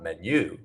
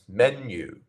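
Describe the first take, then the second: First: The stress is on the second syllable. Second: The stress is on the first syllable. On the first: The speaker calls it wrong. "So not menu" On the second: The speaker calls it right. "we have the first syllable as our stressed syllable"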